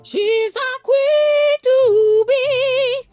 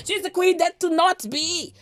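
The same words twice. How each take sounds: First: High sung taunt, slow; high slow sung jeer; sung, mocking singsong. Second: Said in the usual way. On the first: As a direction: sing it out like a mocking chant.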